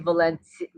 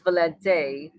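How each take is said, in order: First: The name ends with an 'ee' vowel sound. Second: The name ends with an 'ay' vowel sound. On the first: This is the form spelled with a final I. "with the I at the end, it's actually Valenti" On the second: This is the form spelled with a final E. "With the E at the end, it's Valente"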